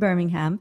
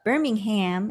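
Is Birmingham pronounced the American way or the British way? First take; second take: British; American. First: It is pronounced the British way. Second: It is pronounced the American way. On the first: "as they would say" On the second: "as we Americans would say"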